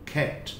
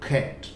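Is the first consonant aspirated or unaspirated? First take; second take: aspirated; aspirated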